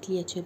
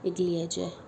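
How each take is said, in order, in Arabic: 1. الكلمة تنتهي بصوت 'cha'. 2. الكلمة تنتهي بصوت 'ja'. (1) "احنا نقول كليتشة" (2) "هي الاسم الحقيقي قليجة"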